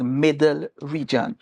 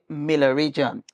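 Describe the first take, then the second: First: The first word sounds like 'Middle', with a d. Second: The first word sounds like 'Miller', without a d. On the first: This is the name as it is written. "we realize it was Middle Region" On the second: This is how locals said it growing up. "we always call it Miller Region"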